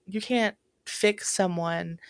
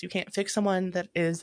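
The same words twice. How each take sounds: First: Slow, each word weighted, especially "can't"; "you can't fix someone" said slowly with weight on "can't"; slow emphasis. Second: Said in the usual way. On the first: Shown as a demonstration.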